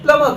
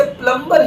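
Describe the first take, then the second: First: प्लम्बर said the English way, smooth and flowing; English-style pronunciation. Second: प्लम्बर said the Hindi way, each consonant spelt out clearly; Hindi-style pronunciation. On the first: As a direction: let प्लम्बर glide out in one smooth English flow. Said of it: "English में प्लम्बर कहते हैं". (प्लम्बर अंग्रेज़ी लहजे में, smooth) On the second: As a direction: say प्लम्बर like a Hindi word, not smoothly. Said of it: "Hindi में कहते हैं प्लम्बर". (प्लम्बर Hindi लहजे में) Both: Shown as a demonstration.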